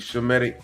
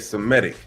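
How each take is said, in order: First: The word begins with a sh sound. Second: The word begins with an s sound. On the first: The speaker calls it right. "it should be Shemitic" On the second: The speaker calls it wrong. "when they say Semitic"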